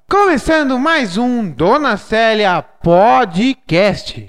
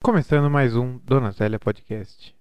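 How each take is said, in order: First: It is said in a lively, excited tone. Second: It is said in a flat, gloomy tone.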